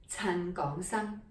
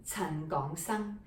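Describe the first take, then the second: No difference in how they are said.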